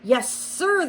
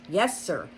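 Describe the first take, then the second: First: Butler reply. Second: Said in the usual way. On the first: A narrator's reading. Butler answers.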